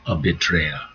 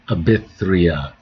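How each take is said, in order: First: The middle consonant is a hard 't' sound. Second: The middle consonant is a soft 'th' sound. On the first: The speaker calls it right. "I got rid of the H. ... a hard T sounds more natural" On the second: The speaker calls it wrong. "A B Y T H R E A"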